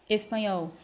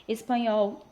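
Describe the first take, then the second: The two takes are said the same way.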